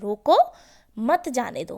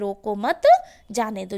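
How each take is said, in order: First: The pause comes after रोको. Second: The pause comes after मत.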